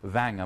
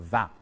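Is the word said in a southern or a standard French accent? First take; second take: southern; standard. First: It is said with a southern French accent. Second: It is said with a standard French accent. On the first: "or, or, or vin" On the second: "instead of vin"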